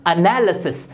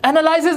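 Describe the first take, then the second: First: एनालिसिस as "uh-NAL-uh-sis", lower; correct pronunciation. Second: एनालिसिस as "ana-LIE-sis", higher; long "lie" in एनालिसिस; wrong pronunciation. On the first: Teacher repeats for learners, एनालिसिस said "uh-nal-uh-sis". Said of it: "ये होता है". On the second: Teacher shows learners the mistake, एनालिसिस with "lie". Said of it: "एनालिसिस नहीं होता". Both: Shown as a demonstration.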